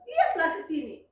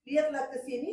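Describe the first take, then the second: First: "lihatlah ke sini" with a firm falling order on "lihatlah"; commanding reading. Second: "Lihatlah ke sini" with a rising, inviting tune on "lihatlah"; gentle request. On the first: A mother showing how a text message reads as an order, firm falling command. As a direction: bark "lihatlah" as a sharp command. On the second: A mother showing how her son meant it, rising gentle invitation. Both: Shown as a demonstration. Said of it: "Kan beda".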